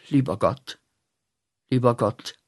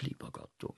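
First: Said in the usual way. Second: Tonlos, kaum hörbar geflüstert; „Lieber Gott“ nur gehaucht, stimmlos. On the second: Shown as a demonstration. (verächtlich geflüstertes „Lieber Gott“) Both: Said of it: "Aber ich sage nicht".

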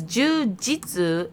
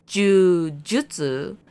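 First: "jiu-jitsu" said slowly as "joo-jitsu"; "jitsu" pronunciation. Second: "jiu-jitsu" said slowly as "joo-JUT-soo"; "jutsu" pronunciation. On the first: Contrasting two Japanese words, "jiu-jitsu" with "jit" for fulfillment. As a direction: clearly give "jiu-jitsu" a "jit" ending. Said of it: "jiu-jitsu in Japanese". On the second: Correcting co-host on the martial art, "jiu-jitsu" as joo-jutsu. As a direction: stretch "jiu-jitsu", with a clear "jutsu" ending. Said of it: "is the martial arts". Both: Shown as a demonstration.

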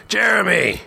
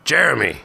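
First: High, drawn-out bellow; very high shouted name. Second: Raised, higher call; mild shout, falling; calling sharply. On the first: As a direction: bellow the name right in his face. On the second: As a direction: call the name to get his attention. Eric calls to dazed man. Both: A narrator's reading.

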